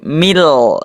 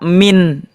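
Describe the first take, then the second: First: The word ends with an l sound. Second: The word ends with an n sound. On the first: The speaker calls it right. "tapi mil" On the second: The speaker calls it wrong. "tidak dibaca min"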